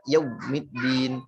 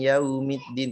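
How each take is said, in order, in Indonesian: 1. Kata yaumiddin didorong keluar dengan keras. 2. Kata yaumiddin dilepaskan dengan ringan dan mudah. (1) "tidak yaumiddin"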